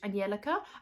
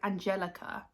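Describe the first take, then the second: First: The name is said with a Swedish pronunciation. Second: The name is said with an English pronunciation. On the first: The speaker calls it right. "she pronounces it in Swedish" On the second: The speaker calls it wrong. "Everyone else calls her like"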